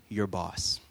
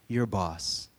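No difference in how they are said.

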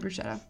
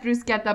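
First: The word is said with an anglicized pronunciation. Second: The word is said with the Italian pronunciation. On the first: The speaker calls it wrong. "I think I say bruschetta" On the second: The speaker calls it right. "But I know that it's bruschetta"

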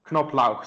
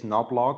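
First: The name is said with a German pronunciation. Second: The name is said with an American pronunciation. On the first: "you have to pronounce the K in front of the N" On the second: "if you Americanize it, it's Knobloch or something"

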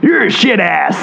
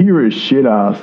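First: It is said in an imitated character voice. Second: It is said in the speaker's own natural voice.

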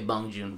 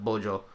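First: The name is read out the English way. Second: The name is said the Korean way. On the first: "if you see the word Bong Joon, you would say Bong Joon" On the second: "but they would pronounce it like Bojo"

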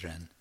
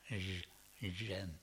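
First: The word begins with an English r sound. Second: The word begins with a zh-like sound. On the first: "We can say Ren, it's easier" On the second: "It's usually transcribed with an R, R-E-N, but it's sort of Zhen"

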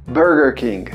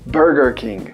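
The two takes are said the same way.

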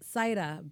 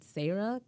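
First: The first vowel sounds like 'eye'. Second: The first vowel sounds like 'air'. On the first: The speaker calls it right. "So it's Saira" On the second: The speaker calls it wrong. "a lot of people pronounce it Sarah because that's how you would say it in English"

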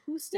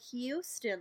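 First: It begins with a plain 'hoo' sound. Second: It begins with a 'hyoo' sound, a liquid U. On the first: "that's what I was saying" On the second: "There's a liquid U"

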